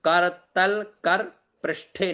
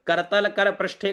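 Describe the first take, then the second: First: करतल कर पृष्ठे slow, broken into kaar-tal kar; wrong dropped vowels. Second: करतल कर पृष्ठे with every short vowel sounded; करतल कर पृष्ठे with final vowels kept; as written. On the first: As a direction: clip off the final vowels in करतल and कर, pausing between words. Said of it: "न बोले". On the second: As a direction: run करतल कर पृष्ठे evenly as ka-ra-ta-la ka-ra. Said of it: "जैसे लिखा हो उसे वैसा ही बोले". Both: Shown as a demonstration.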